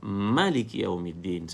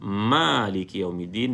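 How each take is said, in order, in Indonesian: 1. Vokal pertama dalam Maliki dibaca pendek. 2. Vokal pertama dalam Maliki dibaca panjang. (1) "satu harakat" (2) "dua harakat"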